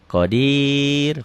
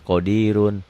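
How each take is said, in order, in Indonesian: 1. R-nya tipis dan katanya berhenti. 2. R-nya tebal dan katanya berlanjut. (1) "ya tipis gitu ya" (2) "kalau nggak dihentikan mah enggak ya"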